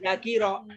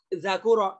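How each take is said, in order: First: The vowel after the k is i. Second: The vowel after the k is u. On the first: "nggak boleh" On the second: "nggak boleh itu"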